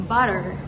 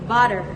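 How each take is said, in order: Both takes have the same delivery.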